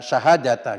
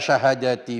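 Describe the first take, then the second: First: The word ends in an a vowel. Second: The word ends in an i vowel. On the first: It is the object of an implied verb. "dibaca syahadata berarti mengira-ngirakan fiil dan fa'ilnya" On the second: It stands in apposition to the word for five. "Kalau dibaca syahadati di situ menjadi atof bayan atau menjadi badal"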